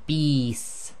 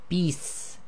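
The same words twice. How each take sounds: First: The vowel is held long. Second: The vowel is cut short. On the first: "if you have the kasra and the ya, you'll say" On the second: "when that's shortened"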